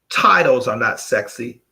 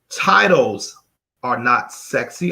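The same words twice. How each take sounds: First: It is said at a normal pace. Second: It is said slowly and deliberately.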